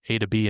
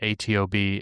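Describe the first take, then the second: First: It is read as the words 'A to B'. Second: Each of the four letters is named separately. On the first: The speaker calls it right. "that's how you pronounce it" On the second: The speaker calls it wrong. "I've been saying each of the letters individually"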